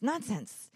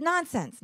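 First: Said in the usual way. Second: High, loud brush-off; firm dismissal. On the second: Retold or imitated. Kind shopper overruling the man, loud and firm. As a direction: wave the whole idea away. Woman cuts in at checkout.

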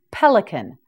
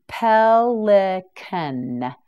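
First: Said in the usual way. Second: Pelican stretched out very slowly; very slow, syllable by syllable. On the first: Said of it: "teacher models the word". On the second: Shown as a demonstration. Teacher modelling Pelican very slowly for learners. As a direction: pull Pelican apart syllable by syllable. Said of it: "teacher models the word slowly".

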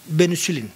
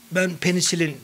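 First: Benüsilin with rounded ü sounds, Black Sea Turkish; Black Sea accent. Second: Said in the usual way. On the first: Retold or imitated. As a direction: say benüsilin like a Karadeniz local. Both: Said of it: "Karadeniz şivesiyle söylerdi".

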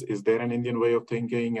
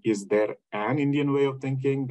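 First: "is there" leaned on, rest of the question even; stress on is there. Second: "way" pressed, the question lifted a little; stress on way. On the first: Lecturer showing the first reading, stress on is there. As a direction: open with a weighted "is there". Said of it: "is the emphasis". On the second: Lecturer showing the second reading, stress on way. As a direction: lean into "way" as the one particular way. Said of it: "That means there is one particular way". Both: Shown as a demonstration.

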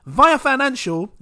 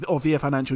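First: "Via" said as VYE-uh, long i; first pronunciation. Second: "Via" said as VEE-uh; second pronunciation. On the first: Trying the name as "Via" rhymes with fire-a. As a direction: say "Via" like "vie-a". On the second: Correcting himself to "Via" as VEE-uh for a patron. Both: Shown as a demonstration. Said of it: "you say Via".

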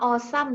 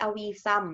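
First: "awesome" said as AW-sum, two syllables, no "i"; correct pronunciation. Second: "awisome" with an extra "i", aw-i-sum; mock the common mistake "awisome" with three syllables; wrong pronunciation. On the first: Teacher showing students the right way to say "awesome". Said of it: "อ่านว่า awesome นะจ๊ะ ไม่ใช่ awisome". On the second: Teacher showing students the wrong way to say "awesome". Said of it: "ไม่ใช่ awisome". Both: Shown as a demonstration.

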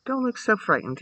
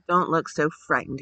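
First: Higher-pitched, mild exclamation; exclaimed. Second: Worried. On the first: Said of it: "he exclaimed". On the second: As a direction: say it with a touch of worry. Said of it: "he said in a worried voice". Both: A narrator's reading.

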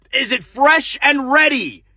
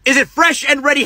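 First: Is it fresh and ready? dragged slowly, falling on fresh; slow line reading. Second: Is it fresh and ready? quicker, punched on fresh; clipped line reading. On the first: Director shows the actor the line, slow and exasperated. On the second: Director repeats the line faster, impatient. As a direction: snap the line again. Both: Acted.

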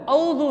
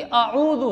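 First: औज़ु with no ain, straight au; wrong pronunciation. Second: आऊज़ु with ain and long oo after the first a; correct pronunciation. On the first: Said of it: "औज़ु नहीं है". (औज़ु, आइन छोड़ कर) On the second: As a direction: say आऊज़ु as a-'oo-zu. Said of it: "ये भी आऊज़ु है". (आऊज़ु, अलिफ के बाद आइन) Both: Shown as a demonstration.

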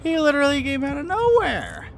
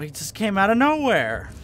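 First: Very high, loud squealed protest; incredulous shriek. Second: Loud, raised voice on "nowhere"; startled protest. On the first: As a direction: hold it way up high, dropping only on "nowhere". Repeats complaint in high shriek. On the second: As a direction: protest loudly, rising then dropping on "nowhere". Startled complaint after being caught. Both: Real, not acted.

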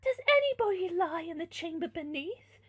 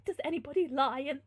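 First: Higher, louder princess inquiry; raised, theatrical question; princess's voice. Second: Slightly raised character voice; mildly voiced question; wrong character's voice. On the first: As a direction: ask it as the noble lady. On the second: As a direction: begin tentatively in the wrong voice. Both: A narrator's reading. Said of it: "sorry, wrong person".

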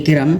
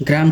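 First: "গ্রাম" said as geram; inserted vowel. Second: Said in the usual way. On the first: Shown as a demonstration. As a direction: break the gr of "গ্রাম" with a vowel, ge-ram. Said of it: "স্বরাগ্রম". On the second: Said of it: "কোন ধ্বনি পরিবর্তন?".

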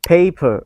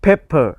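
First: PAPER with a long, gliding "ay"; long vowel paper. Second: PEPPER with a short "eh" in the first syllable; short vowel pepper. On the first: Teacher drilling the word for paper, long-vowel "paper". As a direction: draw out the first vowel of paper. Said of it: "แสดงว่าให้ลากเสียงยาว". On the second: Teacher drilling the word for pepper, short-vowel "pepper". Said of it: "แสดงว่าเสียงสั้นเป็น". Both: Shown as a demonstration.

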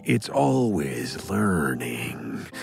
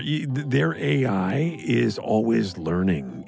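First: Much lower, very slow machine voice; mock AI voice, low and slow; robot voice. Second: Said in the usual way. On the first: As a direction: drone it like a computer. Ad read about learning AI.

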